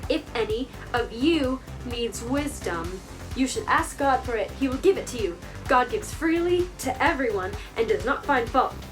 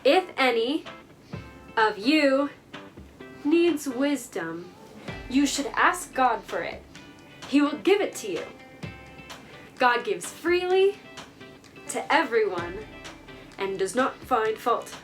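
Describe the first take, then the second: First: It is said faster. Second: It is said at a normal pace.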